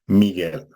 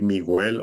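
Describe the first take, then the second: First: The u after the g is silent. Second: The u after the g is pronounced. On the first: The speaker calls it right. "c'est comme si la U n'existait pas" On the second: The speaker calls it wrong. "au lieu de dire"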